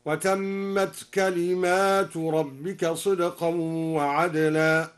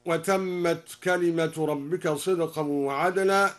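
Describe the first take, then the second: First: كلمات read plural kalimāt, slow chanted; Duri reading. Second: Said in the usual way. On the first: Shown as a demonstration. Teacher reciting al-Duri's reading, slow tartil. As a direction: recite كلمات with the long ā, unhurried. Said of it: "بألف بعد الميم على الجمع هكذا". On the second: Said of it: "هكذا".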